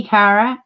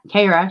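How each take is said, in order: First: Kara with a short a as in cat, KAA-ruh; Kara as first said. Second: Kara with a long a as in care, KAY-ruh; Kara said KAY-ruh, the a like in day; Kara corrected. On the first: Greeting a viewer, first saying Kara with the a of cat. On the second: Correcting herself to a viewer, Kara said KAY-ruh. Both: Shown as a demonstration. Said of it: "sorry, should I say".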